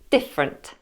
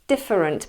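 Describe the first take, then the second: First: The unstressed middle vowel is dropped entirely. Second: The unstressed middle vowel is pronounced in full. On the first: "becomes different" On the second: "different becomes"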